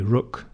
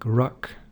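First: It is said in a northern English accent. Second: It is said in a southern English accent.

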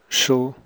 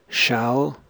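First: The word has a short, reduced vowel. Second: The word has a full, clear vowel. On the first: "The weak form before consonants" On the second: "I'll read the strong and the weak form"

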